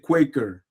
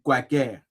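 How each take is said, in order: First: It is pronounced the original English brand way. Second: It is pronounced the way people say it in Congo. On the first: This is the brand's real pronunciation. "la vraie prononciation, c'est Quaker" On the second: This is how it is said locally in Congo. "au Congo, on dit du quaker"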